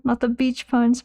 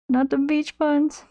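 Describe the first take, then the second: First: Said in the usual way. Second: Drawn-out, higher whine of mock despair. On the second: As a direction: stretch it out like a pained plea.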